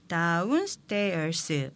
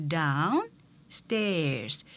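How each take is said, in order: First: Downstairs broken into many Korean syllables, da-un-seu-te-eo-seu; Konglish syllables. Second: Downstairs in just two English beats, accent on the first; two-syllable pronunciation. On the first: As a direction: give each piece of downstairs its own vowel. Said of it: "여섯 개에서 일곱 개의 음절로 발음하지만". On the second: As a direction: separate down and stairs cleanly, no added vowels. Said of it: "이음절로 발음을 하면서 액센트는 앞에 있어요". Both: Shown as a demonstration.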